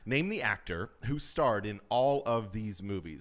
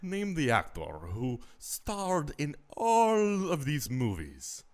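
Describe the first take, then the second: First: It is read in the speaker's normal voice. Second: It is read in a put-on character voice.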